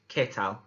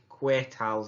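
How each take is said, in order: First: The first word sounds like the letter K. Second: The first word does not sound like letter K. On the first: The speaker calls it right. "As if you're saying the capital letter K" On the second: The speaker calls it wrong. "I did hear quite a few ¿qué tals last week"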